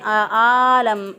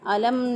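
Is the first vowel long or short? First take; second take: long; short. First: The first vowel is drawn out long. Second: The first vowel is short. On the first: The speaker calls it wrong. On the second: The speaker calls it right.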